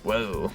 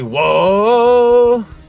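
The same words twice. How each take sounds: First: The word is said at a normal volume. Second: The word is shouted very loudly.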